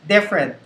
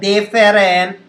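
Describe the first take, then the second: First: The word is compressed into fewer, shorter syllables. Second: Every syllable is said fully and slowly. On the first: The speaker calls it right. "you want to compress the word to make it sound shorter" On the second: The speaker calls it wrong. "Hindi siya different"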